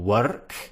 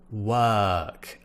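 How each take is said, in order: First: An R sound is pronounced after the vowel. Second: No R sound is pronounced after the vowel. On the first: The speaker calls it wrong. "we don't say work" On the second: The speaker calls it right. "We say work, er. ... we're not pronouncing the R"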